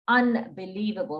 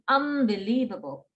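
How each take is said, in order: First: A clear n sound comes before the b. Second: Said fast, with an m-like sound before b. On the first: "It's N" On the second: "when we say it fast, it becomes unbelievable. Almost like an M sound"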